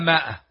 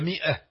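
First: The first vowel is a long 'aa' sound. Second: The first vowel is a short 'i' sound. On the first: The speaker calls it wrong. "تجدون العامة يقولون المئة مائة" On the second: The speaker calls it right. "أما هي مئة لكن هذه الألف لا تنطق"

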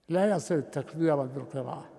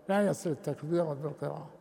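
No difference in how they are said.

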